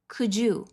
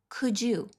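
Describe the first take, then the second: The two takes are said the same way.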